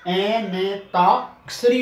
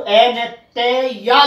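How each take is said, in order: First: ए न ताक्षरी slowly, with no y; slow, corrected ए न ताक्षरी; correct syllable demo. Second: ए न ते या sounded piece by piece with a "yaa"; wrong spelling demo. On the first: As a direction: sound out ए न, then a long ता in ताक्षरी. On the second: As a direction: mistaken breakdown ए न ते या, each sound apart. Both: Shown as a demonstration. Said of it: "वो यहाँ पर या नहीं आएगा".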